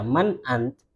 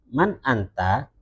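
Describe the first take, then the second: First: "Man ant" cut off at the t; disukun. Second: "man anta" with a rising final -a; bacaan standar. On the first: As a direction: leave the last vowel off "ant". ("Man ant" dengan akhiran mati) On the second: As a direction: sound the whole of "anta", vowel included. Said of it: "itu kalau standar". ("man anta" dibaca lengkap berharakat) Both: Shown as a demonstration.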